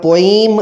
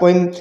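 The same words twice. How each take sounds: First: The word is said with very heavy stress. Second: The word is said with slightly added stress. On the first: "बहुत ज़्यादा जो है इसको stress दे दिया जाता है वो नहीं देना" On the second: "थोड़ा सा अगर आप पोएम कर देते हैं तो कोई हर्ज वाली बात नहीं"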